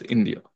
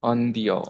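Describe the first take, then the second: First: Said in the usual way. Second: India said as "an-dya"; French-style India, starting "an" rather than "in"; French pronunciation. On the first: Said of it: "means India". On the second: Shown as a demonstration. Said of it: "వాళ్ళు ఎలా pronounce చేస్తారంటే".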